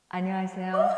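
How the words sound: It is said in a formal, polite way.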